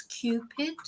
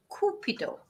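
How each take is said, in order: First: "Cupid" the English way, KYOO-pid; two-syllable English "Cupid"; English pronunciation. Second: "Cupido" the Spanish way, KOO-pee-doh; three-syllable Spanish "Cupido", no y-glide; Spanish pronunciation. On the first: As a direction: say "Cupid" with a y-glide after the C. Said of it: "in English it's Cupid". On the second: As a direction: say "Cupido" with pure oo and a final O. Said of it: "completely different pronunciation". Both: Shown as a demonstration.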